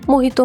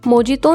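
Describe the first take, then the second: First: The middle consonant is an h sound. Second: The middle consonant is a j sound. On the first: The speaker calls it right. "मोहितो म्हटलं जातं" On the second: The speaker calls it wrong. "मोजितो न म्हणता"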